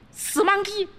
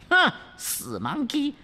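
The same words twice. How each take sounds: First: Very high 死monkey shrieked; shrill princess. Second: High, contemptuous hmph before 死monkey; high demoness spitting 死monkey; scornful princess. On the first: Princess insults again. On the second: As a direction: sneer 死monkey at him. Princess scoffs. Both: Acted.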